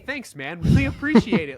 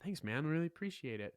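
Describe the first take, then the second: First: It is said with big, loud excitement. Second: It is said with calmer, matched energy.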